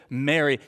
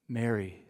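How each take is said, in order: First: Said in the usual way. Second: Softly spoken "Mary", low and gentle; tender. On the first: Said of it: "when he says". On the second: A narrator's reading. Jesus gently calling Mary by name, soft and tender. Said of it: "Maybe he said Mary the way that he would address her".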